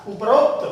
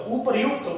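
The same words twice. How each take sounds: First: उपरोक्त with an 'o' before kt; mispronunciation demo. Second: उपर्युक्त with 'yu' before kt; correct pronunciation. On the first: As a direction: say उपरोक्त as up-rokt. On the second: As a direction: say उपर्युक्त as u-par-yukt. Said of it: "इसमें यण संधि हो जाएगी". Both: Shown as a demonstration.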